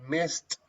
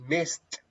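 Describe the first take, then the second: No difference in how they are said.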